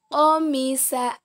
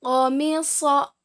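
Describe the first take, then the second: First: Qamisa slowly, ending in light "sa"; letter sin. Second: Qamisa slowly, ending in heavy "so"; letter sad. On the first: Teacher contrasts two letters for students, qamisa with light "sa". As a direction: say qamisa as "qomisa", thin S. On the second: Teacher contrasts two letters for students, Qamisa with heavy "so". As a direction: say Qamisa as "qomiso". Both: Shown as a demonstration. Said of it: "Perbandingan antara huruf so dan huruf sa".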